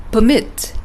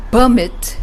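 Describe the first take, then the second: First: Per-MIT, the verb; light "per", land on "MIT" in "permit"; stress on second syllable. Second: PER-mit, the noun; stress on first syllable. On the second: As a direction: punch the "PER" of "Permit", light "mit". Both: Shown as a demonstration. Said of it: "according to your syllable stress pattern".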